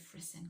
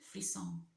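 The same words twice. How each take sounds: First: The word is said with an English pronunciation. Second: The word is said with a French pronunciation. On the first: "I'm not going to say it like that. Let's just say frisson" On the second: "it's French"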